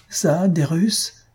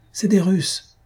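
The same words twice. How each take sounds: First: Slow, higher, drawn-out indignant question; outraged disbelief. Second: Said in the usual way. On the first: Acted. Maroquin scoffing at the spectator, outraged. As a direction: scoff at the idea, dragging each word. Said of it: "hurle le Maroquin". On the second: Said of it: "dit un des spectateurs".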